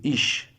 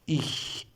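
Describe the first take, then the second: First: The word ends with an English 'sh' sound. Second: The word ends with a soft hissing 'ch' sound. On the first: The speaker calls it wrong. "Some people pronounce this word, especially in India, like ish. It is not ish" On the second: The speaker calls it right. "It is ich. press your tongue to your lower teeth"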